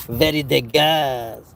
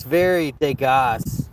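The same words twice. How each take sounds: First: Slow, hammed-up Parisian accent; bad mock-French accent, stretched slowly; horrible Parisian accent. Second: Said in the usual way. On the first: Shown as a demonstration. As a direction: draw it out in a badly faked Parisian accent. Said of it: "that's a horrible, uh, Parisian accent".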